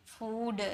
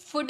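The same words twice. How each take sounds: First: फूड with a long ऊ; फूड stretched long; the correct long फूड; right food. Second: फुड with a short उ; फुड clipped short; the wrong short फुड; wrong food. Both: Shown as a demonstration. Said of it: "फुड नहीं".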